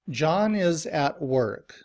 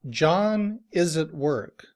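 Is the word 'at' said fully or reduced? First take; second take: full; reduced. First: Every word is said fully and clearly. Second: The word 'at' is reduced to a weak 'ut'. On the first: "Every word is pronounced very clearly" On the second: "in reduced form, we would say this sentence"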